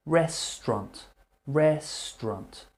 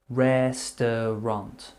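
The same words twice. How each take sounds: First: "restaurant" in two syllables, REST-ront; casual restaurant. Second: "restaurant" said in three syllables, RES-ter-ront, as the book teaches; textbook restaurant. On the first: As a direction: say "restaurant" the quick native way. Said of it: "Normal native speakers will say restaurant". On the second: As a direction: spell out every syllable of "restaurant". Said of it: "how they teach it, in a book". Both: Shown as a demonstration.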